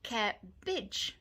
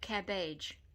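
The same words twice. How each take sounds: First: The last syllable has a short 'ih' vowel. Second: The last syllable has an 'ay' vowel. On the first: The speaker calls it right. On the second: The speaker calls it wrong.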